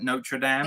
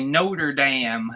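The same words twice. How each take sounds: First: It is said in the speaker's usual accent. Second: It is said in an imitated American accent.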